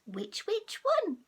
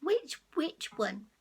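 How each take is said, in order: First: Higher, slower sing-song "Which, which one?"; funny cat voice. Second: Lightly voiced cat. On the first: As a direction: stretch it out like a silly cat. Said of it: "That sounds so funny". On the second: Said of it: "You have a go at saying it". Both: Shown as a demonstration.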